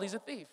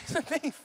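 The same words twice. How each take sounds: First: Much softer, tossed off quietly; dropped aside. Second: Laughing through the words; chuckling as you say it. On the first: Pastor quietly repeating his two-year-old is a thief, softly. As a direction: let it fall away under the breath. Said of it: "Two years old". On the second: Pastor laughing at his toddler son's vitamin theft, laughing. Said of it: "It's crazy. He's a thief". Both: Real, not acted.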